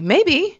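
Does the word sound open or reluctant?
open. It sounds open and genuinely undecided. The answer really is undecided.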